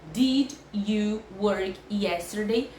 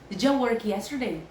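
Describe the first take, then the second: First: It is said very slowly. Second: It is said fast, like a native.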